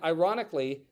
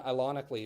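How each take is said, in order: First: The word is said with a normal r sound. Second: The r sound is replaced by an l sound.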